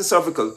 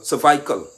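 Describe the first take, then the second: First: "cervical" said correctly as SER-vi-kal; correct pronunciation. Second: "cervical" said as ser-VY-kal, long I in the middle; mocking mispronunciation. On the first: Shown as a demonstration. Setting up the mockery, the correct "cervical". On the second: Mocking Ali's speech, "cervical" said wrong. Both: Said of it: "he can't say cervical".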